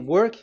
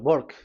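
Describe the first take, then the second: First: It starts with a W sound. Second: It starts with a B-like sound, Indian style.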